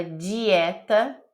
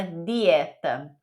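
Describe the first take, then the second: First: Dieta said as jee-eh-ta; Brazilian dieta. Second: Dieta said slowly with a hard d; Italian dieta. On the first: Teacher contrasting the Brazilian dieta. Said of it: "diferente quando você fala dieta". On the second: Teacher contrasting the Italian dieta. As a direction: dieta with a crisp d, no dj. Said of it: "e quando você fala dieta". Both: Shown as a demonstration.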